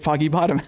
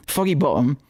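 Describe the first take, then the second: First: Said in the usual way. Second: Lightly put-on Cockney accent; mock Cockney with a glottal stop. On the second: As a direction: say it like a Cockney, dropping the t in "Bottom". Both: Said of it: "we'll say in a Cockney accent".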